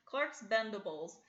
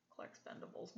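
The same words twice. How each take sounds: First: Said in the usual way. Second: Unvoiced, muttered under breath; muttered aside. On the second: Real, not acted. Mocking aside about the name.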